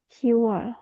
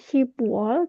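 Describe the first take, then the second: First: No 'b' sound is heard before 'wol'. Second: A 'b' sound is heard before 'wol'. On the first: The speaker calls it right. "tapi Siwol" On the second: The speaker calls it wrong. "bukan Shibwol"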